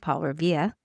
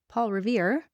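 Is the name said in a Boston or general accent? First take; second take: Boston; general. First: It is said in a Boston accent. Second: It is said in a general American accent.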